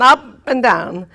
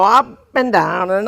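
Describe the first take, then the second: First: Voice swooping up and down. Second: Said in the usual way. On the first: Shown as a demonstration. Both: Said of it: "get my voice to go up and down".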